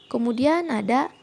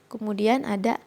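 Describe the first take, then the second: Both takes have the same delivery.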